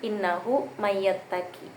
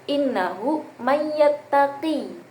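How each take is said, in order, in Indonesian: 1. Vokal akhirnya dibaca pendek. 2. Vokal akhirnya dibaca panjang. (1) "ya di belakangnya itu enggak ada" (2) "menetapkan huruf ya di belakang"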